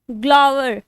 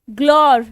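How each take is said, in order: First: ग्लोवर said in two syllables, glow-ver; pronunciation glower. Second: ग्लोर said in one syllable, glore; pronunciation glore. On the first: Teacher giving a pronunciation of ग्लोवर to her class. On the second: Teacher giving another pronunciation, ग्लोर, to her class. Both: Shown as a demonstration. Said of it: "इसको बहुत pronunciation है".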